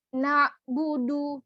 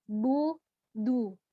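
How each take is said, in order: First: Bu and du both pouted; wrong, both rounded. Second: Bu rounded, du from a smile; correct bu du. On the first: Teacher showing the mistake. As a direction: keep lips rounded for both. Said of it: "Jangan langsung". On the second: Teacher showing lip positions. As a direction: round then spread lips. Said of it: "posisi mulutnya tersenyum". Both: Shown as a demonstration.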